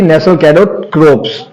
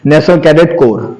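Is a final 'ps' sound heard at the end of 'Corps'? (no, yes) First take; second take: yes; no. First: The last word ends with a 'ps' sound. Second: The last word ends in 'kor' with no 'ps'. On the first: The speaker calls it wrong. "ना कि national cadet क्रोप्स" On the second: The speaker calls it right.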